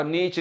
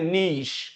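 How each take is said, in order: First: नीच ending in a 'ch' sound; mistaken pronunciation. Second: नीश said 'neesh' with long ee; correct pronunciation. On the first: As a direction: show the wrong नीच, like 'neech'. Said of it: "नीच नहीं कहना है इसको". (नीच, 'च' वाला गलत उच्चारण) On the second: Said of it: "इसको बोलते हैं नीश". (नीश, 'श' वाला सही उच्चारण) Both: Shown as a demonstration.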